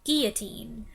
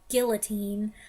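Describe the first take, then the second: First: The double L is said as a Y sound. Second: The double L is said as an L sound. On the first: "the French way, where the double L becomes a Y sound" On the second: "some people say it guillotine"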